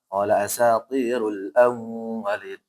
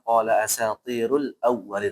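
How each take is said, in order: First: The doubled w is held with a nasal hum. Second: The doubled w is short and quick. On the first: The speaker calls it wrong. "Dia masih gun gunnah" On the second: The speaker calls it right. "Harus cepat"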